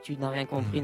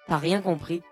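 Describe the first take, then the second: First: The opening is said in full as tu n'as. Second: The opening is shortened to a single syllable t'as. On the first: This is the formal way of saying it. "正式で言うとtu n'as rien compris" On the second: This is the casual conversational way of saying it. "会話だとね、t'as rien compris になるんだよね、ちょっと短くて"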